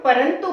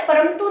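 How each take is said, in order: First: Said in the usual way. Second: परंतु mispronounced with an "m", as "param-tu"; wrong nasal sound. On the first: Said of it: "हम परंतु बोलते". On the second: Shown as a demonstration. Teacher showing students what we don't say, परंतु with an "m" sound. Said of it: "या परंतु नहीं बोलते".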